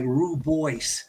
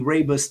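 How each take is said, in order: First: The word is said as spelled, 'roo-boyce'. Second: The word is said as 'ray-bus'. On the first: This is how the spelling makes it look. The speaker calls it wrong. "it's going to look like Rubois" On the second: This is how it is actually said. The speaker calls it right. "but it's actually Raybus tea"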